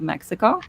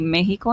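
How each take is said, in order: First: The word is pronounced the English way. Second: The word is pronounced the Spanish way. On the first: "instead of Mexico" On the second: "if you are a Spanish speaker, first and foremost, I feel like it's completely okay for you to say Mexico"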